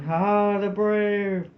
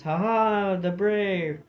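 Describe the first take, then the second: First: High, loud battle roar; roaring war cry. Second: Echoed war cry. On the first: Tam and Doogie charge the vermin, roaring war cry. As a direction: roar it as you charge the foe. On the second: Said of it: "The wild war cry of the border and Highlanders". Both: A narrator's reading.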